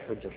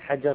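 First: The first vowel is a u sound. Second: The first vowel is an a sound. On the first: This is the name of the narrator's father. "حجر بضم" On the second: This is a different person's name. "ابن حجر غير حجر"

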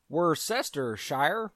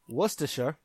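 First: It is said with an American pronunciation. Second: It is said with a British pronunciation.

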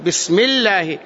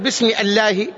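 First: 'Bismillah' is linked without a glottal stop. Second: A glottal stop is pronounced after 'bi'. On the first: The speaker calls it right. "لأن الهمزة هذه همزة وصل" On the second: The speaker calls it wrong. "ما تقول باسم الله"

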